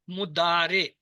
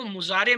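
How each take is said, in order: First: मुदारे with a clear D in the middle, long 'daa'; correct pronunciation. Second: मुजारे with a Z sound in place of D; mispronunciation with Z. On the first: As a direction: say मुदारे slowly and clearly, D not Z. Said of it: "बस इसका तलफ़्फ़ुज़ याद रखना". (मुदारे, 'द' की आवाज़ के साथ सही तलफ़्फ़ुज़) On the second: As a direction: say मुजारे as 'muzaare', buzzing Z in the middle. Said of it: "इसको मुजारे मत कहना". (मुजारे, 'द' की जगह 'ज़' वाला ग़लत तलफ़्फ़ुज़) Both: Shown as a demonstration.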